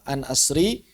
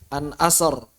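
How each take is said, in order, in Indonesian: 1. Bunyi r itu ringan dan tipis. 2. Bunyi r itu berat dan tebal. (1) "ya tipis" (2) "lebih utama tebal"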